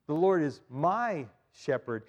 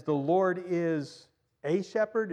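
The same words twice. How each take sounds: First: "my" leaned on in "The Lord is my shepherd"; stress on my. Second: Slow, stressed "a shepherd"; deliberate misquote. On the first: Preacher corrects the misquote, stressing "my". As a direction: say it personal, weight on "my". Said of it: "David personalizes it". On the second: Preacher misquotes to test the congregation, slow stressed "a". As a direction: lean on "a" as if testing. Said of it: "Is that what he says?". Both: Shown as a demonstration.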